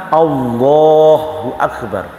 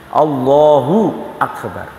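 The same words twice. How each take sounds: No difference in how they are said.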